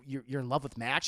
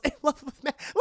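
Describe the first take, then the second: First: Low, halting question as Bruce; acted low, stunned question; hurt disbelief. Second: High, scoffing repeat; acted high-pitched derision; mock incredulous echo. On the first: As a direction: ask it low and stumbling, rising at the end. Bruce voiced, asking in disbelief. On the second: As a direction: throw the question back high, on the edge of laughter. Selina voiced, scoffing echo.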